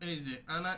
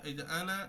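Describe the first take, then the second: Both takes have the same delivery.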